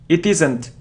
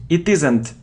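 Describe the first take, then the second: The two takes are said the same way.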